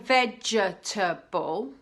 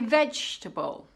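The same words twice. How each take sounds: First: Every syllable is pronounced in full. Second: A sound or syllable is dropped. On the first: "Instead of saying" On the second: "you can say"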